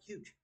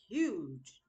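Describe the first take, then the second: First: The word is said flat and monotone. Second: The word is said loud and emphatic. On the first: The speaker calls it wrong. "Not like huge. Like monotone speaking" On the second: The speaker calls it right. "that's how I heard it"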